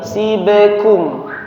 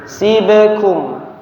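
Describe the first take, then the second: Both takes have the same delivery.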